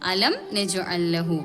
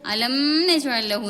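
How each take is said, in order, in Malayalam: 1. n-ന് മുമ്പ് m ശബ്ദം വ്യക്തമായി ഉച്ചരിക്കുന്നു. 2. m ശബ്ദം തുടർന്നു വരുന്ന n-ൽ ലയിക്കുന്നു. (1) "വെളിവാക്കിയിട്ട് തന്നെ ഓതണം" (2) "എന്ന് പറയാൻ പാടില്ല"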